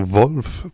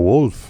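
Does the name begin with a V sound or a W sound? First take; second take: V sound; W sound. First: The name begins with a V sound. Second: The name begins with a W sound. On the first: The speaker calls it right. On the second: The speaker calls it wrong.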